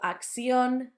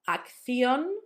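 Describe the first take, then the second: First: The double C sounds like s. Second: The double C sounds like th. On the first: "that third sound can be substituted for a s" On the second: "For us, it sounds like th"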